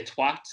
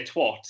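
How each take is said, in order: First: TWAT with a short "a", as in "cat"; British short-a twat; British pronunciation. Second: TWAT said with an "ot" vowel, like "twot"; American-style "twot" for twat; American pronunciation. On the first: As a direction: say twat as the British do, rhyming with "hat". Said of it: "British people say twat". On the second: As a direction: say twat as Americans do, rhyming with "hot". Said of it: "Americans say twat". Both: Shown as a demonstration.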